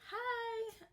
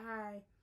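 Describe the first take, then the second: First: The greeting sounds warm and friendly. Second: The greeting sounds flat and dry.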